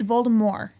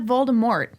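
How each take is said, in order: First: The final T is left silent. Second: The final T is clearly pronounced. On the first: The speaker calls it right. "without the T" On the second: The speaker calls it wrong. "It's not Voldemort"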